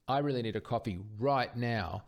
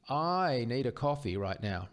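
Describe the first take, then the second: First: Weight thrown onto "right now" at the end; stress on RIGHT NOW. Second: Opening "I" stretched long and raised; stress on I. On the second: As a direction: lean hard on the first word, "I". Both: Shown as a demonstration. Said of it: "that's emphasizing different parts of the sentence".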